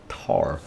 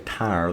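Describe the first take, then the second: First: The word has a flat 'ah' vowel. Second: The word has a full 'eye' vowel. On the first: "they say tar" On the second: "they don't say tire"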